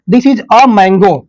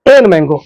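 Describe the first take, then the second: First: \"a\" said as a short \"uh\", slow and clear; weak a. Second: \"an mango\" said as \"en mango\", the wrong form. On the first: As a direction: read \"a mango\" with a reduced \"uh\". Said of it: "इसको आप लोग पढ़ेंगे अ". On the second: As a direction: show the mistake \"an\" before mango. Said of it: "ना कि". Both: Shown as a demonstration.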